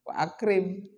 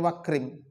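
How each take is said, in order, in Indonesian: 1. Hentian glotal memisahkan kedua kata itu. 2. Kedua kata itu tersambung tanpa hentian glotal. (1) "Harus wa ak wa akrim" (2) "nggak boleh antum bacanya wakrim"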